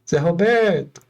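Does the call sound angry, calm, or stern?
calm. The name is called out in a mild tone. It is only a first call. "é uma intenção"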